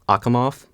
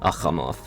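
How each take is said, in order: First: The middle consonant is a hard k sound. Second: The middle consonant is a raspy throat fricative. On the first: "the English way by like hardening the kai to a k" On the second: "I'm pretty sure it's a voiceless velar fricative"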